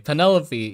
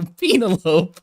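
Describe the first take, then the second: First: It is said like the familiar first name. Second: It is read like an odd scientific-sounding name. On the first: The word is recognized as a normal human name. The speaker calls it right. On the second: The word was taken for a made-up species name. The speaker calls it wrong.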